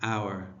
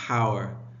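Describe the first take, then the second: First: The word starts with a vowel, no H. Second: The word starts with an audible H sound. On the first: The speaker calls it right. "So here the H is mute" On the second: The speaker calls it wrong. "You don't say hour"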